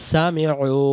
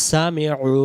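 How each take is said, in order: Both takes have the same delivery.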